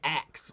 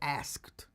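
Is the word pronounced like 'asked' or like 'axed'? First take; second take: axed; asked. First: The word sounds like 'axed', with a ks sound. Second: The word sounds like 'asked', with an sk sound. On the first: It sounds like chopping with an axe. The speaker calls it wrong. "I didn't want to say asked, like, you know, I'm hacking a tree" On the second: It means posed a question. The speaker calls it right. "I wanted to say asked"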